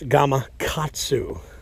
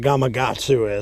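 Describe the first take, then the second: First: The consonant before 'atsu' is a K sound. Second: The consonant before 'atsu' is a G sound. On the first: The speaker calls it right. "with a K, not a G" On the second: The speaker calls it wrong. "I don't know why people say it like that"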